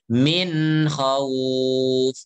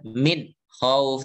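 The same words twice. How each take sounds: First: The two words flow together without a break. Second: There is a break between the two words. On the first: The speaker calls it right. "tapi min khawf" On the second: The speaker calls it wrong. "Jangan terputus. Jangan min khawf"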